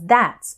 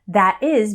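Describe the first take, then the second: First: It is said as one contracted word. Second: It is said as two full words. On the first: "becomes that's"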